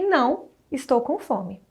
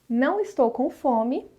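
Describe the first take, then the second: First: There is a clear pause after não. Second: It runs on without a pause after não. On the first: The speaker says no but is actually hungry. "depois uma pausa" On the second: The speaker is not hungry.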